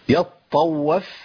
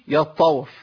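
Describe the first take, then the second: First: The ṭā' is doubled with a brief stop. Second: The ṭā' is said once with no stop. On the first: The speaker calls it right. "قطعت صوت ونفس" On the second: The speaker calls it wrong. "ما أقولش يطوف كده, جبت طوف واحدة"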